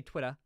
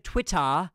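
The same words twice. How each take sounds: First: Said in the usual way. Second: Over-exaggerated British "Twitter", ending on a drawn-out open "ah"; mock a put-on British accent on Twitter; hammed-up British pronunciation of Twitter. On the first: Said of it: "he literally used to say". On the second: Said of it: "he purposefully over-exaggerates it".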